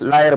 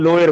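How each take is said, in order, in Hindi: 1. पहला स्वर ज़ोर वाली 'aa' आवाज़ है। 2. पहला स्वर 'o' की आवाज़ है। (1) "हम लोगों की तरफ लायर बोलते हैं, मतलब आ की साउंड बड़े जोर से बोलेंगे" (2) "पश्चिम के क्षेत्र में चले जाएंगे, वहां लोअर बोलते हैं"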